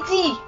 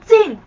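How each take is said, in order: First: The syllable ends without a nasal sound. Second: The syllable ends with a nasal n sound. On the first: The speaker calls it right. "是读鸡" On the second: The speaker calls it wrong. "那个字不是读进"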